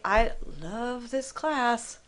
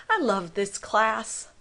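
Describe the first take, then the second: First: Slow, drawn-out sarcasm on "love"; higher pitch, dragging it out with mock affection; sarcastic. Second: Sincere, slower "I love this class"; mean it, drawn out with affection; sincere fondness. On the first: Teacher showing how tone flips the message, sarcastic. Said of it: "think about what is sarcasm". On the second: Teacher telling students they are fantastic, sincere. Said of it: "the tone of your voice". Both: Shown as a demonstration.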